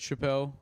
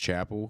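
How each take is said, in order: First: The name does not sound like the word chapel. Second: The name sounds just like the word chapel. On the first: This is how other people usually say the name. The speaker calls it wrong. "my whole life people said Chappelle, and I had to like correct them" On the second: This is how the family says the name. The speaker calls it right. "It was Chapel because that's how what we say is"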